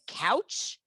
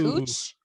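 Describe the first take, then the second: First: The vowel sounds like 'cow'. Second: The vowel sounds like 'coo'. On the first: The speaker is not local. The speaker calls it wrong. "they said couch for" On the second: The speaker is local. The speaker calls it right. "for cooch"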